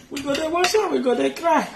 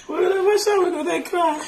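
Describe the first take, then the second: First: High mock whimper as a child; mock crying child. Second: Much higher, louder mock wail; mock wailing child. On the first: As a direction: imitate a child whining at chores. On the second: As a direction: ham up a child crying over dishes. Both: Retells crying over washing plates.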